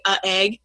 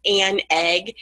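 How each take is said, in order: First: "a" as "uh" running straight into "egg" with no N; tripping over article. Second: "an" said slowly as a full "ann", its N leading into "egg"; defined article an. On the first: Teacher showing what is hard to get out, "uh" colliding with "egg". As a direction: let "a" bump against the vowel of "egg". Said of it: "we kind of trip over". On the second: Teacher showing the correct article, slow clear "an". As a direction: sound the N of "an" clearly before "egg". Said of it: "and creates more definition". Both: Shown as a demonstration.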